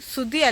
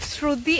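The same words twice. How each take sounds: First: The name begins with a plain 's' sound. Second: The name begins with a 'shr' cluster. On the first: The speaker calls it wrong. "ശ്രുതി അല്ല" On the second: The speaker calls it right. "ശ്രുതി ആണ്"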